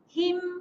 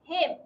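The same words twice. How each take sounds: First: The vowel is a clear, spread-lip i. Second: The vowel sounds between i and e. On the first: The speaker calls it right. "rendahkan bibir. Senyumlah" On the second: The speaker calls it wrong. "kita tak betul-betul rendahkan bibir, dia akan menghasilkan bunyi alaihim"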